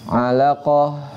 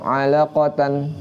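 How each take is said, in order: First: The word ends with an 'h' sound. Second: The word ends with an 'an' sound. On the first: The reader stops on this word. "Khusus untuk tak marbutoh pas dia diwaqaf" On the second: The word is read in continuous reading. "tapi kalau tamar butoh"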